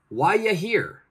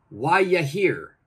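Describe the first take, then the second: First: 'Are you' is joined into one short sound. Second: 'Are you' is joined into one short sound.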